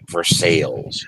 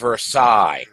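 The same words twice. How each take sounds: First: The name has the local area pronunciation. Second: The name has its standard, original pronunciation. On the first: This is how people in the area say it. "everyone's used to calling it Versailles" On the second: This is what the name properly is. "I know it's Versailles"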